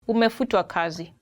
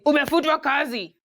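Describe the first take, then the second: First: It is said in a gentle, polite tone. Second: It is said in a blunt, harsh tone.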